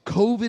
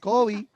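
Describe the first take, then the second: First: It is said with an English pronunciation. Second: It is said with a Spanish pronunciation. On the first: It sounds threatening. "so so in English" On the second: It sounds harmless, like something you want. "when someone in Miami says COVID"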